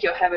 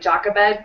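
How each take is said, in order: First: The name begins with a Y sound. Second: The name begins with a J sound. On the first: "I think Yocheved is prettier" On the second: "a lot of people in English-speaking countries pronounce it Jochebed too"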